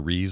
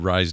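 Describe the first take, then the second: First: The vowel sounds like the one in 'piece'. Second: The vowel sounds like the one in 'rise'. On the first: The speaker calls it right. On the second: The speaker calls it wrong.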